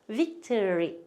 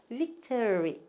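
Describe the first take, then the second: The two takes are said the same way.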